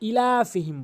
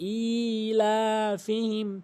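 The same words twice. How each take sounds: First: The opening vowel is short. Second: The opening vowel is drawn out long. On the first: The speaker calls it wrong. "আমরা এটি ইলাফিহিম বলি" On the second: The speaker calls it right. "হামজাকে অবশ্যই টেনে পড়তে হবে"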